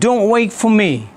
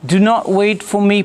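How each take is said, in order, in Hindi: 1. do not शब्द आपस में जुड़कर बोले जाते हैं। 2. do not शब्द अलग-अलग बोले जाते हैं।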